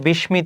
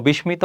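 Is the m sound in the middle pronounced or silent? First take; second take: pronounced; pronounced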